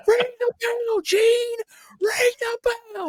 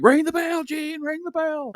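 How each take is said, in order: First: Very high, strained yelling referee; shrill cartoon coach shouting at the commentator; frantic referee yell. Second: High, put-on yelling referee voice; playful high-pitched referee impression; mock referee yell. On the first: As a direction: scream it like a red-faced referee losing it. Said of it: "looks like Coach Buzzcut". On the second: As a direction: tease him like the angry referee. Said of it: "people constantly joke".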